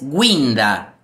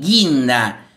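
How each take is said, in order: First: The u after the g is pronounced. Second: The u after the g is silent. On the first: "Si yo agregara la diéresis" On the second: "la palabra guinda es G U I"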